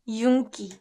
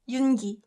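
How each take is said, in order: First: The second syllable starts with a hard k. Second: The second syllable starts with a soft g. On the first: It is a noun meaning shine. "pronounced yunki" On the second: It is a person's name. "if it's a name, strangely, we pronounce it Yoongi"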